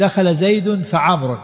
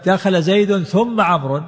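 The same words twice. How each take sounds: First: "فعمرو" drawn out slowly so the joined fa stands out; slow example with fa. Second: Slowed right down, "ثم" set apart with a doubled m; slow example with thumma. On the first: Teacher contrasting conjunctions for students, slow and deliberate. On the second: Teacher showing thumma to students against fa, slow and deliberate. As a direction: spell it out slowly and lean on "ثم". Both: Shown as a demonstration. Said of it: "لكن إذا قلت".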